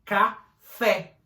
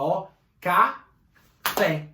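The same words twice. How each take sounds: First: Said in the usual way. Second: Café drawn out slowly with the weight on fé; café devagar, com força no fé; slow, last syllable stressed. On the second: Shown as a demonstration. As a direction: stretch café, pressing the final fé. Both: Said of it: "a última sílaba".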